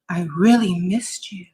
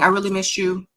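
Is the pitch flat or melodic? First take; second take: melodic; flat. First: The pitch rises and falls in a wave. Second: The pitch stays flat and monotone throughout. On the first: The speaker calls it right. "make the sound at the end sound like the ocean crashing into the beach" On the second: The speaker calls it wrong. "instead of saying, I really missed you, how are you, in the monotone"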